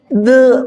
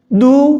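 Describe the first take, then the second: First: The vowel is said flat, without rounded lips. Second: The vowel is said with rounded, pushed-out lips. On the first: The speaker calls it wrong. "malah jelek malahan" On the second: The speaker calls it right.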